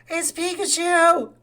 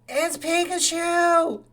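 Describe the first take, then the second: The two takes are said the same way.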